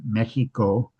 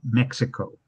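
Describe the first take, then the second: First: The middle consonant is not a ks sound. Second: The middle consonant is a ks sound. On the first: This is how the locals say the name today. "the Spanish pronunciation" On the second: This is how non-Mexicans say the name today. "with a K S sound"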